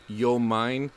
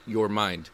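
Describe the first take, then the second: First: The final consonants of both words are dropped. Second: The final consonants of both words are pronounced. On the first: The speaker calls it wrong. "it kept getting pronounced as yo mine" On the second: The speaker calls it right. "you pronounced it right"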